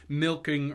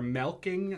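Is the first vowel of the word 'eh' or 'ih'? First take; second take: ih; eh. First: The first vowel sounds like 'ih'. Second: The first vowel sounds like 'eh'. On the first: The speaker calls it right. "It's still an I" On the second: The speaker calls it wrong. "how you'd make it an E"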